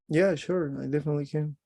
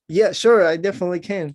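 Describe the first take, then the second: First: It is said mildly, without aggression. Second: It is said forcefully and aggressively.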